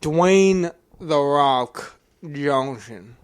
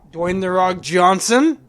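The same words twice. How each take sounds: First: Very slow Southern drawl; exaggerated, drawn-out Southern accent; put-on Southern accent. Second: Loud, slow, rising at the end; stretched-out name with a questioning lift; drawn-out suggestion. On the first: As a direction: stretch the name out in a mock Southern accent. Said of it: "What the fuck was that accent?". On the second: Real, not acted. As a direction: float the name slowly like a big reveal. Suggests casting, later repeated in accent.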